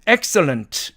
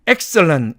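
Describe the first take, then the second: First: The t after the n is pronounced. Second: The t after the n is dropped. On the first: "사전식 발음으로는 excellent 이렇게 되지만" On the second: "이게 사라지니까 excellent 이렇게 발음이 됩니다"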